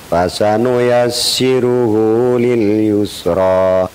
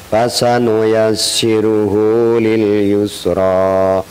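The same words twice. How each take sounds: Both takes have the same delivery.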